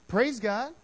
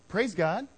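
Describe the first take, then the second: No difference in how they are said.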